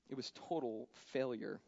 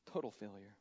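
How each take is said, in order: First: Said in the usual way. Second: "Total failure" repeated softer and lower, TOTAL leaned on; quiet echo. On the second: Shown as a demonstration. Preacher echoing "Total failure" about Peter's denial, quiet and heavy. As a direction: drop it down and let it sink. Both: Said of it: "repeated for weight".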